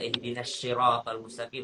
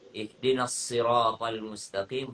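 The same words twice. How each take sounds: First: Siratal begins with an sh sound. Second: Siratal begins with an s sound. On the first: The speaker calls it wrong. "Jangan baca ihdinas siratal mustaqim, salah besar" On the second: The speaker calls it right. "sirata sa"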